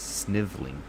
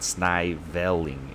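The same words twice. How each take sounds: First: The middle syllable's vowel is nearly dropped. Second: The middle syllable keeps a full vowel. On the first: The speaker calls it right. "So it's sniv l ing" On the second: The speaker calls it wrong. "It's not sniveling"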